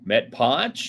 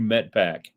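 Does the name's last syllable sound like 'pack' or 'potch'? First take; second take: potch; pack. First: The last syllable sounds like 'potch'. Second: The last syllable sounds like 'pack'. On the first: The speaker calls it wrong. "I was all over like" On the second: The speaker calls it right. "the pronunciation is Metpack"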